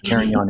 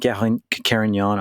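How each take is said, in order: First: It is said with an American pronunciation. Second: It is said with a French pronunciation.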